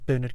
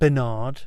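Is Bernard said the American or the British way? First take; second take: British; American. First: The name is said the British way. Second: The name is said the American way. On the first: The speaker calls it right. "Bernard is Bernard Cribbins" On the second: The speaker calls it wrong. "if anybody's from the States or from Canada and thinking it's said like that"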